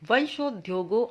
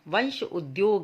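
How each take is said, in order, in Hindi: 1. यह यौगिक जुड़कर एक शब्द की तरह बोला जाता है। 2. यह यौगिक दो भागों में बाँटकर बोला जाता है। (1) "फिर दोनों को साथ बोल ले" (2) "संधि विच्छेद के माध्यम से शब्दों को कुछ अलग अलग पढ़ के"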